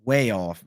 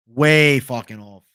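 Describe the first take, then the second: First: Said in the usual way. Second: Louder, slowed, each word leaned on; slow emphatic verdict. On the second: Real, not acted. Streamer insisting to chat the stats are wrong, slow and emphatic. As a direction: drag out "Way fucking off" with weight on every word.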